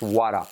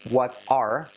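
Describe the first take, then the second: First: The T in 'what' is a soft tap. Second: The T in 'what' is a clear T. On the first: "then it becomes" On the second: "if you link it to"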